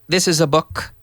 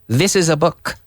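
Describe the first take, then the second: No difference in how they are said.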